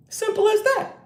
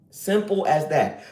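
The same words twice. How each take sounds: First: High playful. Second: Said in the usual way. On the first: Shown as a demonstration. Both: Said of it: "said twice".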